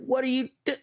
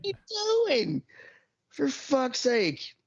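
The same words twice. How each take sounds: First: High, incredulous question cut off by a laugh; mock disbelief. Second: Much higher and very slow, stretched in disbelief; drawn-out mock exasperation. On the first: Imitating himself at a stopped driver, cut-off high question. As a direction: start high and baffled, then break off laughing. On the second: Venting about a driver's late blinker, slow high whine. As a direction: drag every word out in a high exasperated whine. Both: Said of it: "I'm like".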